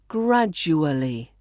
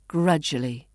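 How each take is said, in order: First: The word is said with every syllable. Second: The word is said with syllables squeezed.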